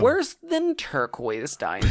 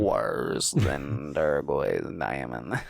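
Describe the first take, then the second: First: The voice has little creaky vocal fry. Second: The voice has heavy creaky vocal fry. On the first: The speaker calls it wrong. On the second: The speaker calls it right.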